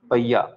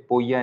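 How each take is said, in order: First: पैया with an "ai" vowel, not "o"; pronounced PAIYA. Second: पोया with an "o" vowel in place of "ai"; mispronounced as POYA. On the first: Teacher shows the class how the term ends, पैया said "pai-ya". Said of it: "इसको पैया बोलेंगे". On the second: Teacher warns the class off this reading, पोया said "po-ya". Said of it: "पोया नहीं बोलेंगे". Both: Shown as a demonstration.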